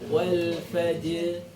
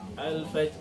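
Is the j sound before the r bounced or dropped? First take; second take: bounced; dropped. First: The j is bounced before the final r. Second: One of the final consonants is dropped. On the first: The speaker calls it right. "Jinnya dipantulkan dulu, baru masuk ke huruf ro sukunya" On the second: The speaker calls it wrong. "Tidak boleh hilang salah satu. ... Salah"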